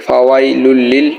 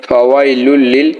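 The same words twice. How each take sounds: Both takes have the same delivery.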